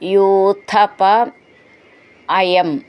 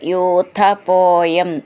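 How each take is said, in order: First: The two words are said as separate words. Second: The two words merge into one word.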